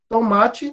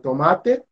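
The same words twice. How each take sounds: First: The word has Portuguese pronunciation. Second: The word has Spanish pronunciation. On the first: "Tem em português" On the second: "em espanhol"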